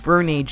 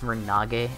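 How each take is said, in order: First: The name is pronounced in an English way. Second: The name is pronounced in a Japanese way. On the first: "So it'd be Vernage in English" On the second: "I think it's Vernage in Japanese pronunciation"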